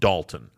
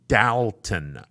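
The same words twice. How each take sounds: First: The name is said the expected way. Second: The name is said the local way. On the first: The speaker calls it wrong. "It is not pronounced Dalton" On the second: The speaker calls it right. "it is pronounced Dalton"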